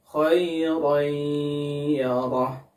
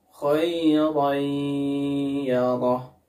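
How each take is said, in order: The two takes are said the same way.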